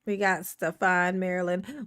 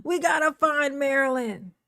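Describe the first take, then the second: First: Lower-pitched note to self; low musing. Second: Lifted, lilting repeat; raised singsong. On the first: Streamer searching for Marilyn, low musing. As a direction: mull it over low. First take, looking for Marilyn. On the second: Streamer searching for Marilyn, raised singsong. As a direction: raise it into a playful announcement. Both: Real, not acted.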